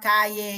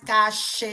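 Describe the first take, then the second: First: The middle consonant sounds like y. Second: The middle consonant sounds like sh. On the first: This is how they speak now. "Eles falam caie" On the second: This is how they no longer speak. "Eles não falam mais cache"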